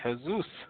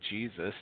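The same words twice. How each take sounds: First: The name is said with a Spanish pronunciation. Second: The name is said with an English pronunciation. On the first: "in Spanish countries, they say Jesus" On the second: "they don't say Jesus"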